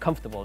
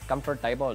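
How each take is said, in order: First: It is said in a neutral standard accent. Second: It is said in an imitated Indian accent. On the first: "That's how you, you you're supposed to pronounce it" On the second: "it's like an Indian guy. Uh, it's like he pronounced it comfortable"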